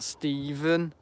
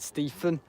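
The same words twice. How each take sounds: First: The middle consonant is pronounced as a v. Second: The middle consonant is pronounced as an f. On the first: The speaker calls it right. "not Stephen" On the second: The speaker calls it wrong. "because I was so used to pronouncing me P H's"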